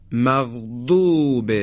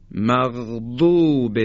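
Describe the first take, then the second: First: مغضوب very slow, ض held along the tongue edge; مغضوب with a long drawn ض; long dhad. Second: مغضوب drawn out slowly, ض stretched; مغضوب with the ض sound extended; long dhad. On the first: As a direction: stretch the ض in مغضوب. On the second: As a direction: lengthen ض in مغضوب. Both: Shown as a demonstration. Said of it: "به تلفظش دقت بفرمایید".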